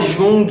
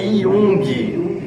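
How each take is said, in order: First: The name begins with a 'zh' sound. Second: The name begins with a 'y' sound. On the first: The speaker calls it wrong. "o nome não é Jung" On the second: The speaker calls it right. "a letra J ... tem som de I"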